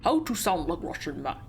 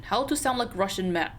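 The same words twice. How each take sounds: First: The same words retried in a thick Russian accent. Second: Said in the usual way. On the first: Shown as a demonstration. Player retrying the line as a Russian-accented sailor. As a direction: lean fully into a broad Russian accent. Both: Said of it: "how do you sound Russian?".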